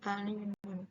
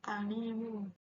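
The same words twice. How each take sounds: First: The final n sound stays as n. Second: The final n sound turns into m. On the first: The speaker calls it wrong. "bukan alimun" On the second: The speaker calls it right. "Jadi dibaca itu alimun"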